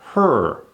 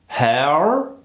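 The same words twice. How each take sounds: First: The vowel is dropped, leaving only the R. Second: A distinct vowel is sounded before the R. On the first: The speaker calls it right. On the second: The speaker calls it wrong.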